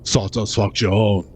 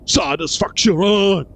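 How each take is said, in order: First: It is said in a robotic voice. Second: It is said in a natural voice.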